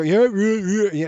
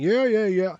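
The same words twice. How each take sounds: First: Mock bored teenager, a bit higher and louder; teen brush-off. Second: Lightly mimicked dismissive teen, a bit higher; a breezy, couldn't-care-less yeah; teen brush-off. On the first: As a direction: toss it off like an impatient fifteen-year-old. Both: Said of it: "You know, she's fifteen".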